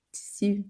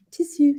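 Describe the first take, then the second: First: Said in the usual way. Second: "tissue" with a French sound. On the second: Shown as a demonstration. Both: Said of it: "this is also a French word".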